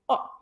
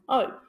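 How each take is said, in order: First: The vowel has its short sound, not its name. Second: The vowel sounds like its letter name. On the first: The speaker calls it right. "flip the vowel, make it say O" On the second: The speaker calls it wrong. "making the vowel say its name"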